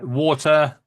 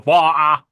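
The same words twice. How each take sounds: First: "water" with the T clearly sounded, northern style; Lancashire "water". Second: "Water" loud, with the T dropped; imitated "Water". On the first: Shown as a demonstration. Lancashire man showing how he says things, northern "water". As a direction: say "water" his own Lancashire way, T intact. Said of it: "Lancashire is my northern accent". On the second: Mimicking how you guys hear it, T-less "Water". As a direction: mimic their "Water", louder and open, no T. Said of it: "and you guys are".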